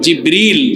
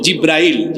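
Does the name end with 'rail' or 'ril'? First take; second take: ril; rail. First: The name ends with a short 'ril' sound. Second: The name ends with a long 'rail' sound. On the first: The speaker calls it right. "সঠিক নাম এসেছে এভাবে" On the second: The speaker calls it wrong. "আমরা অনেক অশুদ্ধ করে বলি"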